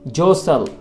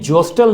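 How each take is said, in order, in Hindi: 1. बीच वाला t silent है। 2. बीच वाला t बोला जाता है। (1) "बल्कि जोसल" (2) "इसका टी साइलेंट है, यानी जोस्टल नहीं पढ़ा जाएगा"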